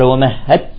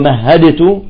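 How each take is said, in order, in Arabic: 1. تُدغم الدال في التاء تماماً. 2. تُنطق الدال واضحة قبل التاء. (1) "قال ومهدت له تمهيدا" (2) "ما نقول ومهدت"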